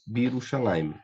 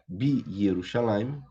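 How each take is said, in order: First: The 'ye' syllable after 'bi' is dropped. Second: The 'ye' syllable after 'bi' is fully kept. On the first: "torna-se mais simples Birushalayim" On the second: "eu teria aqui Bi Yerushalayim"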